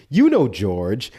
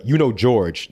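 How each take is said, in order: First: "You know, George" slower, with the lift on "You"; slow down and lift "You" to gently prompt; corrected intonation. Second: "You know, George" read quickly, with a falling end; wrong intonation. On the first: Host redoes the aide's gentle reminder, slower and lifting "You". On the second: Host's first try at the aide's line, with a falling tune. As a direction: rattle off "You know, George" and let it drop. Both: Shown as a demonstration. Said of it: "I didn't get the intonation right".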